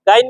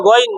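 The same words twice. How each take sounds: First: "গাইন" with an open long aa vowel; wrong pronunciation. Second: "গইন" with a full, rounded o vowel; heavy pronunciation. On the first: Teacher showing students the mistake, mispronounced "গাইন" with open aa. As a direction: say "গাইন" with a thin aa after the g. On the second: Teacher correcting students' letter name, heavy rounded "গইন". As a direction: say "গইন" heavy, no aa sound after the g. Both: Shown as a demonstration. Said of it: "গাইন না, গইন".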